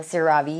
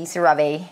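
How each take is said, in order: First: CeraVe ending in a "vee" sound; CeraVe as ser-AH-vee. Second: CeraVe rising to a "vay" ending; CeraVe as ser-AH-vay. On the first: Vlogger naming her cleanser, CeraVe as "ser-AH-vee". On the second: Vlogger adding the other version, CeraVe as "ser-AH-vay". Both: Shown as a demonstration. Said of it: "if it's CeraVe or CeraVe".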